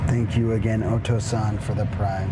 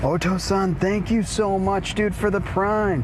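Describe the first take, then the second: First: Calm thanks. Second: Excited thanks. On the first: Repeat thanks, low and soft. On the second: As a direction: hype up the thank you. Streamer thanking subscriber, lively. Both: Real, not acted.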